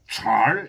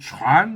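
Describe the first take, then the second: First: The word ends with an r sound. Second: The word ends with an n sound. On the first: "니은 발음이 중국 사람들한테는 리을 발음으로 이렇게 돼요" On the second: "중국 사람들은 이걸 촨 이렇게 읽어요"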